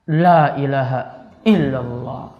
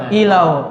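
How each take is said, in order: First: The phrase is said at a normal, unhurried pace. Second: The phrase is rushed and squashed into a blur. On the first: "Itu baru normalnya itu" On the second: "Kalau makin cepat gimana? Kalimatnya jadi apa?"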